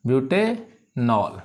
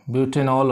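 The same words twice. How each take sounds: First: Slow butanol, pausing between ब्यूटे and नॉल; syllable by syllable. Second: Said in the usual way. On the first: Shown as a demonstration. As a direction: sound out butanol for pupils to follow. Teacher repeats it in parts.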